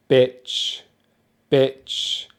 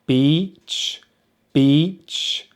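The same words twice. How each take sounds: First: "bitch" with short, lax IH; short vowel demo. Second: "beach" with long EE, slightly rising; long vowel demo. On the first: Teacher contrasting two words, short IH in "bitch". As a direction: clip the vowel in "bitch" to a brief IH. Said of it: "short vowel sound". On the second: Teacher contrasting two words, long EE in "beach". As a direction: stretch the EE in "beach", lips spread. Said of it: "big difference in the long vowel". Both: Shown as a demonstration.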